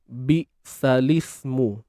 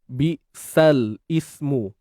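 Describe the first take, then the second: First: The l sound runs straight into the next word. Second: The l sound is stopped before the next word. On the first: The speaker calls it right. "bacaan yang uh, tepatnya ialah kita baca begini" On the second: The speaker calls it wrong. "Dengan mematikan lam di sini, maka ianya adalah bacaan yang yang salah"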